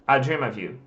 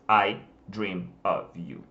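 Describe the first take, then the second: First: The words run together into one stream. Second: Each word is said separately and distinctly. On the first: The speaker calls it right. "se fala assim" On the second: The speaker calls it wrong. "ele vai falar I dream of you. Porém, não se fala assim"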